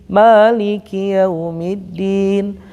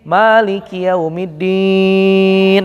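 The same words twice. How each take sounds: First: The final long vowel is held briefly, two counts. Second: The final long vowel is held very long, six counts.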